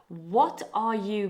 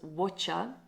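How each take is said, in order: First: All three words are said fully and separately. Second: The words run together into one reduced word.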